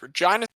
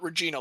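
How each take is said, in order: First: It is said the ordinary local way. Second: It is said like the royal Latin word. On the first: The speaker calls it right. "It is Regina" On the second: The speaker calls it wrong. "It is not Regina like King"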